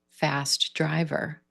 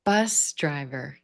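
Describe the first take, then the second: First: Fast driver with driver carrying the beat; slow, lean on driver not fast; stress on driver. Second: Slow, weight on bus; stress on bus. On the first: Teacher modelling an adjective phrase, stress on driver. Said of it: "shift that stress to driver". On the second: Teacher modelling a compound noun, stress on bus. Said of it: "put our stress on the first word". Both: Shown as a demonstration.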